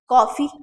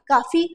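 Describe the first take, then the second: First: The first vowel is a rounded 'aw' sound. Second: The first vowel is an open 'ah' sound. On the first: The speaker calls it right. "ओ आ रहा है ... अब सही है" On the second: The speaker calls it wrong. "गलत बात है ये ये उच्चारण ही आपका गलत है"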